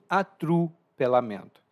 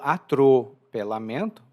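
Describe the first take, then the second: First: The vowel after 'atr' sounds like 'u'. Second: The vowel after 'atr' sounds like a clear 'o'. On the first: This is a relaxed, everyday pronunciation. "mas sim atrupelamento" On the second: This is a careful, formal pronunciation. "Eu não falo atropelamento"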